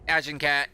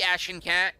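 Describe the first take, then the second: First: The name begins like the word Agincourt. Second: The name begins like the word ashen. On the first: "Like the Battle of Agincourt" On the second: "Or it could be Ashen Cat"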